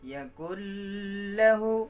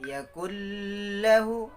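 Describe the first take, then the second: First: A nasal hum is held before 'lahu'. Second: A nasal hum is held before 'lahu'.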